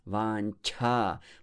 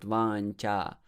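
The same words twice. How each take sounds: First: The ch is said with a strong puff of air. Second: The ch is said without a puff of air. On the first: The speaker calls it right. "more air. It's aspirated" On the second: The speaker calls it wrong. "It's not vancha"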